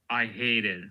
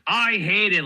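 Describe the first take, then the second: First: It is said plainly, without emphasis. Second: It is said with strong emphasis.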